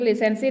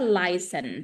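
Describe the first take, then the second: First: It is said with Indonesian sounds, ending in -si. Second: It is said with English sounds, ending in -ns. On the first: The speaker calls it wrong. "that's bahasa Indonesia" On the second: The speaker calls it right. "so it's a license"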